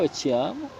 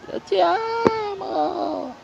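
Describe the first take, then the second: First: It is said at a normal, close volume. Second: It is shouted loudly, as if from far away.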